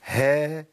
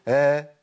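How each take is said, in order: First: "ها" with clear h and long a; correct ha fatha. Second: "ها" with the h hidden, only the a vowel left; wrong fatha. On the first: Teacher correcting the error, "ها" with h fully sounded. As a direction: bring out the h at the start of "ها". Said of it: "ما ينفعش الكلام ده". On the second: Teacher showing a vanished ha, "ها" as bare vowel. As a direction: lose the h of "ها" into the vowel. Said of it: "انا كده مش هاء". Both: Shown as a demonstration.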